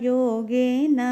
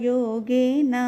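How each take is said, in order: The two takes are said the same way.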